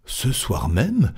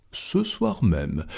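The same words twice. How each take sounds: First: Slow question with pitch swooping up; surprised question. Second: Soft, slow, settled answer; calm confirmation. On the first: Stuart asks Fogg about tonight's departure, surprised. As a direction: ask it in drawn-out disbelief. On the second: Fogg confirms his departure to Stuart, calm and quiet. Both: Acted.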